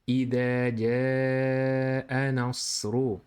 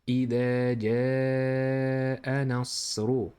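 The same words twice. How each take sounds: Both takes have the same delivery.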